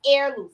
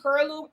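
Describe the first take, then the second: First: The word begins with no H sound. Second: The word begins with an audible H sound. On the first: The speaker calls it right. "but I think it's heirloom. Somebody told me air. Like the H is um the H is silent" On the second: The speaker calls it wrong. "I keep saying heirloom"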